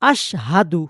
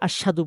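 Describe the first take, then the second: First: The h sound is clearly pronounced. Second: The h sound is weak or missing. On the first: The speaker calls it right. "ওখানে হা আছে।" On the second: The speaker calls it wrong. "আমরা অনেকে আশহাদু বলি। আশহাদু না"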